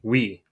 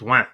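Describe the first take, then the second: First: Yes is said as a clean, plain 'wee'. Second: Yes is said nasally, almost like a duck. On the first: "Francais de France, I think is how they pronounce it. It would be we" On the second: "Here, it's win ... it almost sounds like a duck"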